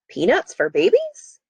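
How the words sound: The voice goes up at the end. It is read as a question. "make my voice go up at the end, because this is a question"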